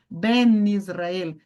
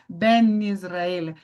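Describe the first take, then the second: The two takes are said the same way.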